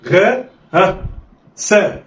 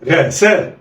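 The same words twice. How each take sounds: First: "غا" alone, a prompting "ها", then "سا"; letters sounded apart. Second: "غا سا" joined in one quick go; snatch "غا سا" with no pause; snatched together. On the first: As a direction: pause after "غا" before giving "سا". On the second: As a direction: blend "غا سا" like one word. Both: Shown as a demonstration. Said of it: "يلا، اخطف".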